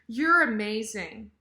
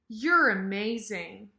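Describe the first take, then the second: The two takes are said the same way.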